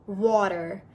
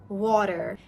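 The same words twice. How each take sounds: No difference in how they are said.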